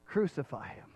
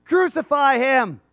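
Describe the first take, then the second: First: Low, soft, falling repeat; quiet echo. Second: Loud, high, slow mob cry; daring shout. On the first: Preacher echoing the crowd's cry, quiet and low. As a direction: let the cry sink to a sombre hush. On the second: Crowd daring God at the cross, loud shout. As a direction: shout it out like a dare. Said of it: "that was really a dare". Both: Acted.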